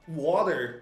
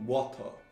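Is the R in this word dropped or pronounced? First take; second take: pronounced; dropped. First: The R sound is clearly and strongly pronounced. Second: The R sound is softened and not heard.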